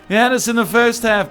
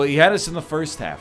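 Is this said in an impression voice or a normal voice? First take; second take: impression; normal. First: It is said in an exaggerated put-on character voice. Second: It is said in an ordinary speaking voice.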